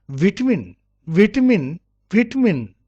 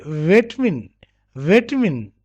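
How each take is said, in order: First: VITAMIN with a short i, "VIT-uh-min"; British pronunciation. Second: VITAMIN with an e-like first vowel, "VAY-tuh-min"; American pronunciation. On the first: Teacher modelling British vitamin for students, short first i. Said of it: "in British". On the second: Teacher contrasting American vitamin with British, first vowel opened to "vay". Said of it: "But in American". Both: Shown as a demonstration.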